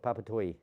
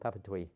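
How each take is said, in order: First: The name ends with a 'toy' sound. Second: The same.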